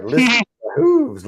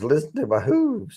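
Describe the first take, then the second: First: High squeaky voice on Listen to my hooves; a comedian's goofy high-voiced movie line; squeaky movie quote. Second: Said in the usual way. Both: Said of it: "And he's like".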